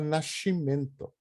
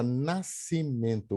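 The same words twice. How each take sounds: First: The s is said as a hushing sh sound. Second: The s and c are said as separate s sounds. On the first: "ele fala nascimento" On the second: "o S e o C separadinhos"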